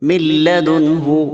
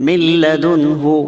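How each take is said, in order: The two takes are said the same way.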